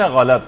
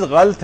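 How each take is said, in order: First: غلط in two syllables, "gha-lat"; correct pronunciation. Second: غلط as one syllable, "ghalt"; common mispronunciation. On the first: Teacher giving the original word, غلط said as "gha-lat". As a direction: sound a short a after the l in غلط. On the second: Teacher quoting what many people say, غلط said as "ghalt". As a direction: drop the second vowel of غلط, running l into t. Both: Shown as a demonstration. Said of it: "جبکہ اصل لفظ ہے".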